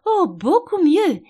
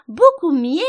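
First: High, loud, drawn-out exclamation; crying out. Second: Very loud, high squeal on "Beaucoup mieux". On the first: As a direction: exclaim it slowly and heartily. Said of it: "s'écria la reine". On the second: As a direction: let "mieux" turn into an animal squeak. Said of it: "sa voix se transformant en un couinement". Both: A narrator's reading.

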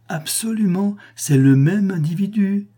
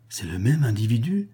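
First: High, excited declaration; ringing, high-pitched certainty; emphatic confirmation. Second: "C'est le même individu" rising at the end as a question; level start, pitch lifting on "individu"; questioning repeat. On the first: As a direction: confirm it triumphantly, pitched well up and louder. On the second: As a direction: ask "individu" with a rising tune, at usual volume. Stunned query, then emphatic confirmation. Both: A narrator's reading.

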